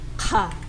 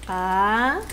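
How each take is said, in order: First: The k has a strong puff of breath. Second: The k is plain, without breath or tension.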